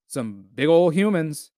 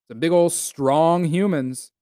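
First: Said in the usual way. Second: Slower, leaning on "strong"; slow emphatic repeat. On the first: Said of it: "Some big ol' strong humans". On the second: Real, not acted. Admiring Nordic giants to listeners, slow and emphatic. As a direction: drag it out, stressing "big ol' strong". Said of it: "some big ol' humans".

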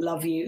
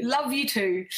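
First: Said in the usual way. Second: A little brighter and fonder; affectionate reply. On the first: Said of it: "Jane said". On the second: Real, not acted. Host answers a viewer's love, warmly. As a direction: answer her back with real affection.

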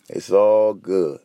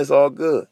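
First: It's all good drawn out slow and lower, weight on all; slow, lower reassurance. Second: Said in the usual way. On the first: Shown as a demonstration. Vlogger soothing viewers, slow and lower. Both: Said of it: "it's all about your outlook".

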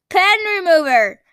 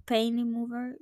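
First: "Pen" with a short e, loud and high; pen, not pain. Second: "Pain" with a long ay, at normal level; the pain version. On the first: Showing viewers the right way to say the word, loud and high. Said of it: "it's called pen remover". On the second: Trying the other way to say the product for viewers, plain and level. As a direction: say "Pain" like the word for hurt, plainly. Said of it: "not even sure if I'm saying it right". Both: Shown as a demonstration.

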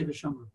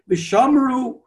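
First: V'shamru dropped low and almost swallowed; V'shamru mumbled far lower and softer; muted. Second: V'shamru sung out high and strong; yelled out. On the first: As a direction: barely voice V'shamru, as if not saying it. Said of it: "So we don't say". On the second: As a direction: belt out V'shamru like the shul crowd. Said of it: "when they yell it out". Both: Shown as a demonstration.

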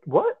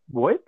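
First: The same what, much higher, in mock disbelief; shocked squeak. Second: Said in the usual way. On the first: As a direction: squeak it out like you can't believe it.

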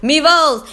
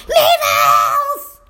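First: Said in the usual way. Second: High-pitched mock holler; mimicked kid shout at full stretch; imitating yelling student. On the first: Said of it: "I'll just start saying". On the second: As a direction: yell it back like an overexcited pupil. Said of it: "walking around the room yelling".

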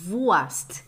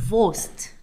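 First: Wurst said with an open "ua" vowel, like a Brazilian; Brazilian-style Wurst. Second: Wurst said with a closed, almost-O vowel, "vost"; German Wurst. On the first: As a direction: say Wurst the foreign way, "vuast". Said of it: "o português também falar Wurst". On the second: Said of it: "é quase um O". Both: Shown as a demonstration.

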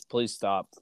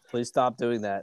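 First: Said in the usual way. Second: Breathless whispered begging; whispered plea. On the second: Real, not acted. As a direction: whisper Please stop doing that. Begging partner to stop.

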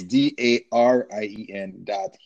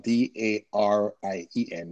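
First: Slow, laughing, each letter stressed; spelling it out. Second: Letter by letter, steady; spelling it out. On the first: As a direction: spell it again slowly so the R is heard. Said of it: "people hear a V, it's actually an R". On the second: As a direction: spell each letter clearly. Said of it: "my first name is spelled". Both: Real, not acted.

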